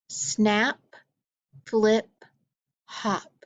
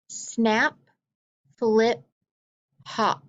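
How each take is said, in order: Both takes have the same delivery.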